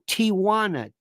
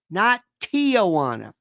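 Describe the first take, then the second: First: It is said without an extra sound. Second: It is said with an extra sound added. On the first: The speaker calls it right. "No, Tijuana. T I J U A N A" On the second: The speaker calls it wrong.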